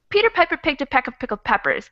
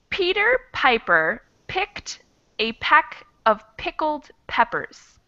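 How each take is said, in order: First: The sentence is spoken quickly. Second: The sentence is spoken slowly. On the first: "Let me try this one fast" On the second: "I'll go slow one time"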